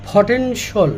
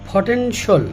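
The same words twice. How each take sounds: The two takes are said the same way.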